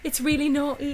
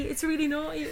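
First: Put-on higher, louder giggly girl voice; mock-scandalised kid, higher and louder. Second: Higher, hushed mock-scandalised child; hushed giggly kid. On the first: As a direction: squeal it like a naughty child. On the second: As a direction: say it again like a secret thrill. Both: Kids giggling over naughty film.

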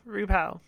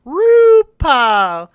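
First: Hushed last repeat; fading echo. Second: Long swooping call; grand announcing. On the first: Echo fading after the call. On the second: Announcer-style drawn-out call. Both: Pretend.

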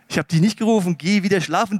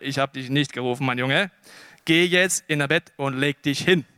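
First: Firm, emphatic teacher's denial; mildly exasperated old teacher, voice pushed. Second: Low, calm fatherly denial; gentle, low-voiced mentor; patient old teacher. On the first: Acted. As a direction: send the boy off briskly and firmly. Eli's first denial to the boy. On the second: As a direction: soothe the boy back to bed, voice dropped. Eli patiently sends boy back.

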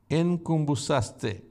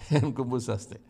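First: Enkumbusaste said slowly, syllable by syllable: en-kum-bu-sas-te; careful Greek word. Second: Laughing repeat. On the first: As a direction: spell out enkumbusaste slowly like a teacher. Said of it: "the Greek word is". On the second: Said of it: "Don't worry about it". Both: Shown as a demonstration.

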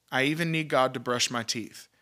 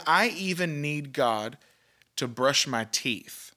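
First: Said in the usual way. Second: I even need God drawn out slowly, weight on even; slow emphatic quote. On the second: Retold or imitated. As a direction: lean on even and let brush my teeth land slowly. Quoting the preacher's striking line.

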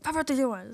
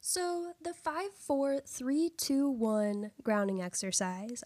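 First: Numbers rattled off in a blur; rushed. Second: Slow and deliberate, each number apart. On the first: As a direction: rush the countdown carelessly. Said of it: "'cause I can be like". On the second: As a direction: spell out every number slowly. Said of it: "I have to really slow myself down when I say that". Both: Shown as a demonstration.

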